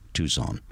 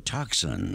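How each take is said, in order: First: The name is given its local pronunciation. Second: The name is given an outsider's pronunciation. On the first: This is how residents say it. The speaker calls it right. "our lovely Tucson" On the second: This is how out-of-town visitors say it. The speaker calls it wrong. "as some of them call them"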